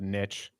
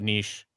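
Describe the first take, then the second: First: The word is said the American way. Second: The word is said the Canadian way.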